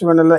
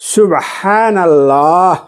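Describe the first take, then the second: First: It is said quickly, rushed in a string. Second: It is said slowly and deliberately, once. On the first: It is recited hastily without attention. The speaker calls it wrong. "সেটাকে আমরা কিভাবে পড়ছি? ... এইভাবে আমরা" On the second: It is recited with care and attention. The speaker calls it right. "তাহলে আপনার কিভাবে পড়তে হবে?"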